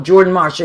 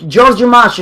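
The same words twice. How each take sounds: First: Said in the usual way. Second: "Georgia Marsh" said instead of Jordan Marsh, Jordan sounded as Georgia; grandma's way of saying it. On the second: Retold or imitated. Grandma's name for the store, "Georgia Marsh" with Jordan said as Georgia. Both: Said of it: "she used to call it".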